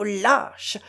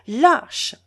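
First: A muttered first lâche; contemptuous. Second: Lâche thrown out louder and rising; lâche cried out at him, higher; a second lâche, shouted; outraged. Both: A narrator's reading. Catherine insults Lougine.

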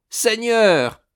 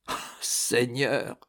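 First: "Seigneur" flung out much higher and louder; crying out. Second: "Oh, Seigneur" breathed out quietly and slowly; hushed cry. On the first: Old Rosa crying out to God in relief, much higher and louder. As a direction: burst out to heaven. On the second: Old Rosa, overwhelmed by forgiveness, hushed and slow. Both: A narrator's reading. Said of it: "cria-t-elle".

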